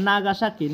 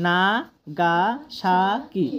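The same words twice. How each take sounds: First: Said in the usual way. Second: "Nagasaki" very slow, each of four syllables drawn out. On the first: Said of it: "তোমরা যখন ভাগ করবে". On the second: Shown as a demonstration. Teacher splits Nagasaki into syllables for students, syllable by syllable. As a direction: stretch "Nagasaki" as না, গা, সা, কি. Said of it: "তোমরা যখন ভাগ করবে এক একটা".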